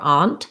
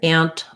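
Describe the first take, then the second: First: The vowel is an open 'ah' sound. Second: The vowel sounds like the one in 'cat'. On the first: "they use the ah vowel" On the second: "exactly the same as this ant, which is how I say it"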